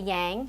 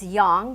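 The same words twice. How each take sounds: First: The word is said in an anglicized way. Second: The word is said in a Chinese-style way. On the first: The speaker calls it wrong. "We don't say yang" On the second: The speaker calls it right. "it's yang"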